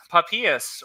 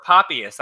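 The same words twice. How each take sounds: First: "Papias" with the middle syllable stressed, pa-PEE-us; alternative pronunciation. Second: "Papias" with the first syllable stressed, PAH-pee-us; alternative pronunciation. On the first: Lecturer unsure of a church father's name, trying "Papias" as pa-PEE-us. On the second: Lecturer unsure of a church father's name, trying "Papias" as PAH-pee-us. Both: Shown as a demonstration. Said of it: "not sure how to pronounce that".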